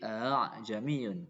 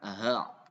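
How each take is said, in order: First: The second sound is a softened glottal catch. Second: The second sound is an h. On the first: The speaker calls it right. "Antara alif dan hamzah" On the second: The speaker calls it wrong. "bukan aha ... ini enggak benar"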